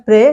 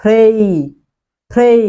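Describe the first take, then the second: First: 'pray' as short 'pre', no puff; wrong pronunciation. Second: Louder 'pray' with puffed p and 'ei' glide; corrected pronunciation. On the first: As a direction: demonstrate 'pray' with hard p and flat e. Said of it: "it's not pray". (ভুল উচ্চারণে 'pray', প্রে) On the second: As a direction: model 'pray' emphatically as 'phrei'. (শুদ্ধ উচ্চারণে 'pray', ফ্রেই) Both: Shown as a demonstration.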